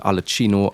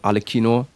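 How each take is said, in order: First: The consonant before -ino is a ch sound. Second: The consonant before -ino is a k sound. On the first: The speaker calls it wrong. "why I pronounced it Alachino" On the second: The speaker calls it right. "I finally start pronouncing her name correctly"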